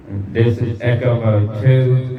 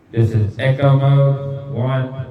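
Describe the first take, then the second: First: Longer delayed echo on the voice; slow words through a long mic echo; long echo trailing each word; echo mode two. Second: Short repeating echo on the voice; mic echo, drawn-out last word; slow demo through short echo; echo mode one. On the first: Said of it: "this is like a longer delay in the echo". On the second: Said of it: "if I turn mic echo on". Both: Shown as a demonstration.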